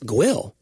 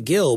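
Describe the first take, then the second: First: It starts with a Gw sound. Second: It starts with a plain G sound. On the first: This is how a longtime local says the name. "That it's Gwill" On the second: This is how the speaker says the name. "I say Gill"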